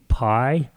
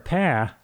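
First: Pie is said with a standard accent. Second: Pie is said with a Southern accent.

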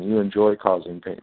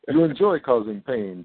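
First: Spoken in the speaker's ordinary natural voice. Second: Spoken in a put-on dramatic character voice.

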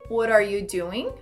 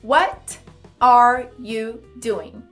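First: The words run together in a reduced blend. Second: Each word is pronounced clearly and separately. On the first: "vai pronunciá-la com mais naturalidade assim" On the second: "pode falar de uma forma mais clara"

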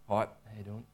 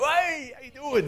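First: It is said quietly and low. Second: It is said loudly with lively energy.

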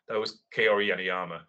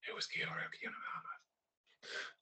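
First: It is said loudly. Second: It is said quietly.

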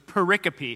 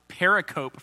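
First: It does not sound like periscope. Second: It sounds like periscope without the s. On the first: The speaker calls it right. "until you hear someone else say it and you go, oh, okay. So pericope" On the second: The speaker calls it wrong. "you'll probably mispronounce it pericope for a long time"

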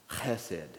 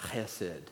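The two takes are said the same way.

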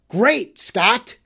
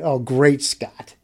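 First: It is yelled out triumphantly. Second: It is said in an exasperated way.

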